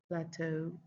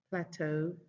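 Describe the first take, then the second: The two takes are said the same way.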